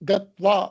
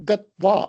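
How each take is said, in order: No difference in how they are said.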